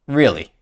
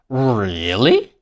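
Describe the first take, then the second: First: The pitch falls on the word. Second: The pitch falls and then rises. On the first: The speaker is doubtful or unimpressed. "If I say it with a falling tone" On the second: The speaker is intrigued but a little skeptical. "If I say it with a fall, rise tone"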